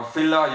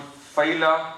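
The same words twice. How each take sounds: First: Fila said with a short i, like FILL-a; alternate pronunciation. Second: Fila said with a long first vowel, like FAY-la; alternate pronunciation. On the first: Anatomy teacher offering the other way to pronounce the term, fila as FILL-a. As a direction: say fila as FILL-a, stressed up front. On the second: Anatomy teacher giving the first way to pronounce the term, fila as FAY-la. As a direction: say fila with a drawn-out diphthong up front. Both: Shown as a demonstration. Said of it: "you can pronounce it".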